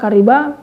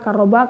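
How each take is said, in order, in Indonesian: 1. Bunyi r diikuti vokal 'i'. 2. Bunyi r diikuti vokal 'a'. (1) "wa kasriha" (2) "bi fathir ra'i"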